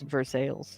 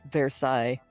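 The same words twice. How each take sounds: First: It is pronounced the local American way. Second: It is pronounced the French way, as spelled. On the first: "but it's Versailles" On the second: "That's spelled Versailles"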